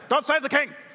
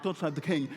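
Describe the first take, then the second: First: It is said loudly, with lively energy. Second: It is said flatly, without energy. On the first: The speaker calls it right. "You've got to say" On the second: The speaker calls it wrong. "You can't say it like"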